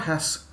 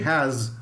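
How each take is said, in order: First: The word ends in an s sound. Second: The word ends in a z sound. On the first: The speaker calls it wrong. "It's not has" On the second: The speaker calls it right. "Z sound"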